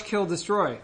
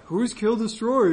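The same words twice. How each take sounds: First: Said in the usual way. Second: Slow, lightly voiced African American accent; a hint of African American accent. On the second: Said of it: "That was also my black voice".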